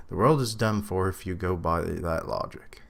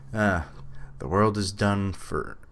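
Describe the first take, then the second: First: Said in the usual way. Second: Southern accent. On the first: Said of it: "I don't know why I almost went". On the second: Shown as a demonstration. Reacting to the game, he lightly slips into a Southern accent. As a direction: slip into a faint Southern accent. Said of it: "almost went, like, full southern accent there".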